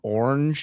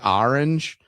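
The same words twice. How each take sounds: First: The word is said in a plain accent. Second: The word is said in an exaggerated accent. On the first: This is how the speaker used to say it. "instead of saying orange" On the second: This is how the speaker says it now after joking. "now I say orange"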